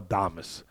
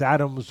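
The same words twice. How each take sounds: First: "Adames" with the stress moved to the middle, a-DAH-mes; name said as Adames. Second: "Adams" with the stress up front, AD-ums; name said as Adams. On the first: Unsure of the fighter's name, offering "Adames" with middle-syllable stress. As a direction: say "Adames" Spanish-style, ah-DAH-mess. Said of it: "I thought maybe it was pronounced Adames". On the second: Unsure of the fighter's name, offering "Adams" with first-syllable stress. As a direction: say "Adams" like the common English surname. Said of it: "I thought maybe it was pronounced". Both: Shown as a demonstration.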